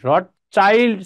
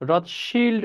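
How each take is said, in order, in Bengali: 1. দ্বিতীয় অংশটি 'child' শব্দের মতো শোনায়। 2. দ্বিতীয় অংশটি 'shild' এর মতো শোনায়, sh দিয়ে। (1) "চাইল্ড অনেকে উচ্চারণ করে" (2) "রথশিল্ড উচ্চারণ করাটাই অধিক শুদ্ধ"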